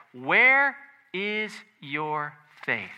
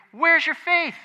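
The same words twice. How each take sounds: First: Very slow, word by word; slow, weighty questioning of the disciples; measured rebuke. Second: High, loud challenging question; raised-voice reproach to cowering followers; sharp rebuke. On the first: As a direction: space out each word as a solemn challenge. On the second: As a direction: fire it out as a retold scolding. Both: Retold or imitated. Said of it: "Jesus rebuked them".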